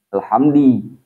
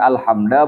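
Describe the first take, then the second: First: The word ends in an i vowel. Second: The word ends in an a vowel. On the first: "bukan alhamdi" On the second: "bukan alhamda"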